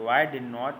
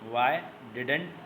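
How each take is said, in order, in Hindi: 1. नकार दो पूरे शब्दों की तरह बोला जाता है। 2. नकार एक शब्दांश-समूह में संकुचित होता है। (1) "या डिड नॉट भी पढ़ सकते हैं" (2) "इसको डिडेंट भी पढ़ सकते हैं"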